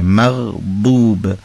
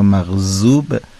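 First: The consonant is an emphatic d sound. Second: The consonant is a plain z sound. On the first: The speaker calls it right. "به این شکل" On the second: The speaker calls it wrong. "مغزوب نباید بشه"

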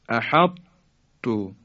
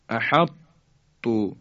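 No difference in how they are said.

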